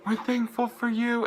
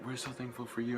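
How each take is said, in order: First: Very high, loud fan scream; screamed fan reply. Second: Soft, higher-pitched quote of the singer; quoted singer. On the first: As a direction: shriek it back at the singer from the crowd. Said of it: "So I just screamed". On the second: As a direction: say it softly, as the singer to her crowd. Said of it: "'cause she's like". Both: Retold or imitated.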